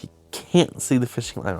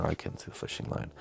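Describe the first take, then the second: First: Said in the usual way. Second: Mock whisper. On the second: Mock echo of own line.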